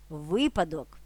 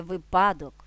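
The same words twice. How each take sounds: First: Випадок correctly stressed at the start: ВИпадок; stress on first syllable. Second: Випадок misstressed in the middle: виПАдок; stress on second syllable. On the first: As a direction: hit ВИ in випадок. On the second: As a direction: lean on ПА in випадок. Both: Shown as a demonstration. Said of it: "а не випадок".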